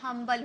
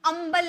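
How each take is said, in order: First: The word begins with an h sound. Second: The word begins with a vowel sound. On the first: The speaker calls it right. "हम्बल होता है। ठीक है, ह का sound आता है" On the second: The speaker calls it wrong. "अम्बल नहीं बोलेंगे"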